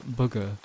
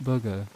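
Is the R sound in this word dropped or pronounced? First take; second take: dropped; dropped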